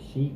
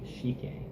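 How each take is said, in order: First: The name is said the usual English way. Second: The name is said the Japanese way.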